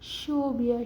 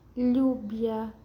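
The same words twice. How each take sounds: First: The word begins with an sh sound. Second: The word begins with a y sound. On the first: "el sonido de la S H" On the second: "Tiene el sonido de I como lluvia"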